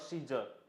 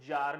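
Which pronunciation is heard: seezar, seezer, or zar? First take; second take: seezer; zar. First: Begins with see, ending in an er sound. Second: One syllable, starting with a z sound. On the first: The speaker calls it wrong. "और सीजर" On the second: The speaker calls it right. "the prounciation is जार"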